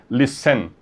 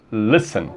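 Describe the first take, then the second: First: Listen stressed at the end, lis-SEN; wrong stress on last syllable. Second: Listen stressed up front, LIS-en; correct stress on first syllable. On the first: Teacher showing the wrong form, listen stressed on SEN. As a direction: push the second syllable of listen with a full vowel. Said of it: "porque você não fala listen". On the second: Teacher showing the right form, listen stressed on LIS. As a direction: hit LIS and let the end of listen fade. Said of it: "você fala listen". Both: Shown as a demonstration.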